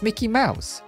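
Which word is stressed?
Mouse. The stress falls on the word Mouse. The speaker calls it right. "it's Mickey Mouse"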